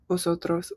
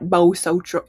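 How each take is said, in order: First: The first consonant is soft and subtle. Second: The first consonant is a hard, distinct V. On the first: The speaker calls it right. "Kind of softer" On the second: The speaker calls it wrong. "It's not vosotros"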